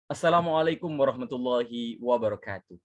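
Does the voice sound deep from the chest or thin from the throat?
deep chest. The voice is deep and comes from the chest. The speaker calls it right. "Suara yang dikeluarkan dari diafragma"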